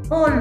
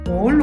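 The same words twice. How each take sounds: First: It is said in a natural child-like voice. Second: It is said in a deep, growly bear voice. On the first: "Voz de niños" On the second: "Con voz de oso"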